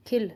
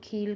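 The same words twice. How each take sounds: First: Said in the usual way. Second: "खील" with a long ee, "kheel"; wrong long vowel. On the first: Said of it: "उनको इस तरह से बोलते". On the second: Shown as a demonstration. Teacher showing what not to say, "खील" with long ee. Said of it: "बड़ी की मात्रा लगाकर".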